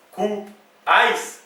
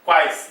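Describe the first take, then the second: First: Quais broken as cu, pause, ais; wrongly divided. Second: Said in the usual way. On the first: Shown as a demonstration. Teacher testing whether quais can divide, cu and ais separated. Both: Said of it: "Eu vou dividir?".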